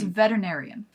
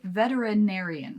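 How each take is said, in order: First: One written syllable is dropped. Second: Every written syllable is pronounced. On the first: "but it's veterinarian" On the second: "Which is spelled veterinarian"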